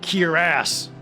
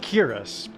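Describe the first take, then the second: First: The stress falls heavily on the last syllable. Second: The stress is not on the last syllable. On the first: This is how others pronounce it. "heavy emphasis on the ass part" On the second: This is the speaker's usual pronunciation. "I've always said"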